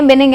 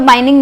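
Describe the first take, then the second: First: The first vowel sounds like 'ih'. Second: The first vowel sounds like 'eye'. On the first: The speaker calls it right. "बिनिंग है" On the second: The speaker calls it wrong. "बाइनिंग नहीं है"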